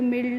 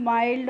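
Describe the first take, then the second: First: The vowel is a short 'i' sound. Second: The vowel is a long 'eye' sound. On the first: The speaker calls it wrong. "इस तरीके से नहीं पढ़ना है" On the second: The speaker calls it right. "जो भी होगा last में उसे हम आई करके पढ़ रहे हैं"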